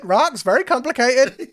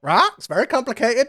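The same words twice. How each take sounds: First: Squeaky high voice, a bit louder; same squeaky bird creature, pushed harder. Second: Squeaky, high Lintu voice; a squeaky little bird creature fretting. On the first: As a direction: chirp it up high again. GM repeats Lintu line. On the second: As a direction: pitch it way up, chirpy. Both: Acted.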